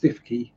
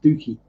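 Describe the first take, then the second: First: The first syllable sounds like 'stiff'. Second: The first syllable sounds like 'stew'. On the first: The speaker calls it wrong. "it's not pronounced Stiffkey" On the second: The speaker calls it right. "it's pronounced Stooky"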